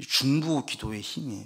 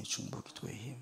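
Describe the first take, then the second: First: Said in the usual way. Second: Much softer, lingering repeat; soft echo. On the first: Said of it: "repeated for emphasis". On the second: Shown as a demonstration. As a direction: let the phrase 중보 기도의 힘 fall to a near hush. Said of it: "quiet repeated emphasis".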